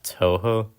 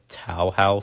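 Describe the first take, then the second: First: The first syllable rhymes with 'toe'. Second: The first syllable rhymes with 'cow'. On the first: The speaker calls it right. "told me it's pronounced Toho" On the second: The speaker calls it wrong. "I was calling it Tao How for a long time"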